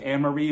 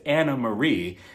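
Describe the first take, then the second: First: The first name part has one syllable. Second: The first name part has two syllables. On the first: The speaker calls it wrong. "I've been mispronouncing her name" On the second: The speaker calls it right. "but it's Anna Marie"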